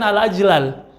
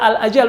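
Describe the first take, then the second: First: The word is said as al-ajlal. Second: The word is said as al-ajal. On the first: The speaker calls it wrong. "al-ajlal ini tidak fasih karena tidak sesuai dengan kaidah nahwu dan shorof" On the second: The speaker calls it right. "yang benar di sini adalah al-ajal"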